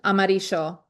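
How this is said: The double L sounds like sh. This is how it is said in Argentina. "I think it's Argentina. I think they say amarillo, like a S H"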